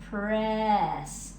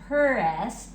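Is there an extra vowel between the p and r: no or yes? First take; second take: no; yes. First: The p and r blend with no vowel. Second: An er vowel separates the p and r. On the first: The speaker calls it right. "We want pr s. Press, like that" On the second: The speaker calls it wrong. "It's not a purr s"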